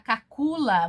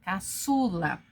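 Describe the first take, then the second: First: The middle consonant is a hard K sound. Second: The middle consonant is an S sound. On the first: The speaker calls it wrong. "para não ficar cacula" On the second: The speaker calls it right. "você coloca a cedilha, caçula"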